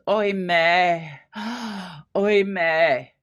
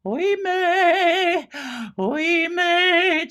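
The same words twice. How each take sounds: First: Held-back grief. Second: High, far-carrying melodramatic "Oimè"; overdone wailing. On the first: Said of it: "she's gonna break down maybe, but she doesn't". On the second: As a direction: wail "Oimè" high and overacted. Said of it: "you don't have to deliver it like". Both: Shown as a demonstration.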